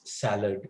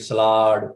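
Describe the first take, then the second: First: A vowel separates the s and l sounds. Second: The s and l sounds are joined together. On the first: The speaker calls it right. "No, it is salad" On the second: The speaker calls it wrong. "two consonants are brought together"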